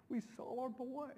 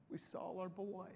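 First: Rising, choked-up joy; emotional. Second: Softer, fading and choked; emotional. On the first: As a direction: relive the moment, voice lifting with emotion. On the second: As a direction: let it sink in, falling away quietly. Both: Real, not acted. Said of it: "I still just get so emotional".

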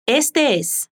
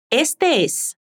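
First: Said in the usual way. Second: "este es" said slowly, the two E sounds run together into one long vowel; linked vowels. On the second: Shown as a demonstration. Teacher showing learners how "este es" links, slow and smooth. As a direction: slowly glide "este" straight into "es" without a break. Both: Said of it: "vamos a conectar los sonidos de la letra E".

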